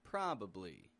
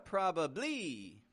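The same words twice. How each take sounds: First: The last syllable is medium and not raised. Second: The last syllable is strong and raised. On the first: The speaker calls it right. "It's kind of medium" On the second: The speaker calls it wrong. "It's not a probably, probably. It's not quite like that"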